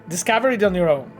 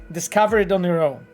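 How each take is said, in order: Both takes have the same delivery.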